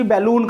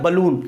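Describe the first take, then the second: First: बैलून with an open "ba" first vowel, "BAL-loon"; बैलून with a full first vowel; wrong pronunciation. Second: बलून with a short neutral first vowel, "buh-LOON"; correct pronunciation. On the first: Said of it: "बैलून नहीं होता". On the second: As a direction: model बलून as buh-loon, falling at the end. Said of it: "इसका pronunciation क्या होता है". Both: Shown as a demonstration.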